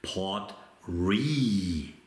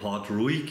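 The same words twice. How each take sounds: First: The name is said unlike its spelling. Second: The name is read out just as spelled. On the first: This is the proper pronunciation of the name. The speaker calls it right. "wenn man richtig aussprechen wollte" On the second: This is how the spelling suggests it. The speaker calls it wrong. "ich spreche ihn so aus, weil er so geschrieben wird"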